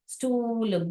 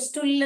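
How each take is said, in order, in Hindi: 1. oo स्वर लंबा है। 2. oo स्वर छोटा है।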